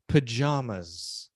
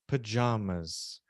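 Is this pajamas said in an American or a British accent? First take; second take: British; British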